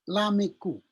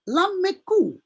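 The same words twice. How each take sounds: First: The m sound is short and single. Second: The m sound is held long and doubled. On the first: "Seharusnya kan kalau membaca ini lameku" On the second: "Jadi dua double M-nya"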